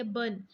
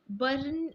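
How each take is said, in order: First: बर्न said as "bun", no R sound; बर्न with the R dropped, short and falling; correct pronunciation. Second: बर्न said with a rolled R, "bərn"; बर्न with the R sounded, as the wrong way; wrong pronunciation. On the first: Teacher modeling बर्न for students without the R. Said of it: "इसकी pronunciation जो है वो बर्न बनती है". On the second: Teacher showing students the wrong बर्न with the R. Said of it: "बर्न नहीं बनती". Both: Shown as a demonstration.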